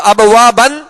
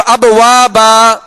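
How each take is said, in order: First: ابوابن ending in a short "ban"; tanween pronounced. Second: Slow ابوابا with a long final "baa"; alif-length stop. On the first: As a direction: sound the final n of ابوابن. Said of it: "دو زبر کی تنوین". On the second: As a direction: stretch the closing aa of ابوابا. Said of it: "تنوین کو الف سے بدل کر ہم نے وقف کیا". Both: Shown as a demonstration.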